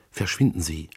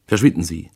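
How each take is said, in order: First: Whispered, voiceless and hurried; a breathless whispered warning; urgent whisper. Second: Said in the usual way. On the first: Acted. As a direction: hiss the order under her breath. Urgent plea to leave.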